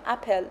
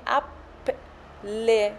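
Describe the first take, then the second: First: The final vowel is silent. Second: The final vowel is pronounced. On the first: "ما میگیم اپل ولی ای آخرش خونده نمیشه" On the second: "اگه شما بخوایم به ایتالیایی بخونیم باید بگیم اپل"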